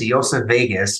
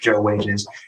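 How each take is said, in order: First: The name is said with German pronunciation. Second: The name is said with American pronunciation.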